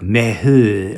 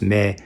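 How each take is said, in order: First: The word has an exaggerated breathy h sound. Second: The word is said plainly, without extra breath. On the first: The speaker calls it wrong. "she would overly pronounce like the H sound" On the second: The speaker calls it right. "which is just me"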